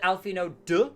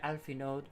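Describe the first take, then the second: First: The name ends with a clear d sound. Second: The name ends with a faint d sound. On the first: "some people have said Alphino duh" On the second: "is it very very softly there"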